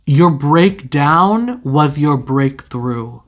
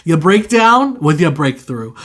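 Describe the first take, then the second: First: Slow, drawn-out, weighty delivery; slow dramatic pronouncement. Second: Said in the usual way. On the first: Real, not acted. Reader delivering the tarot message to viewers, slow and solemn. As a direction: intone it slowly like a prophecy. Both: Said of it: "I don't know why I said it like that".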